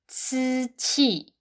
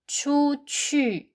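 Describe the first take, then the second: First: The last vowel is an unrounded i sound. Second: The last vowel is a rounded ü sound.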